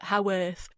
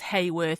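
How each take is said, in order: First: The name is said the local northern way. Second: The name is said the non-local way. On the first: This is how people up north say it. The speaker calls it right. "up north they call it Haworth" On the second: This was the speaker's earlier guess. The speaker calls it wrong. "I thought it was Hayworth"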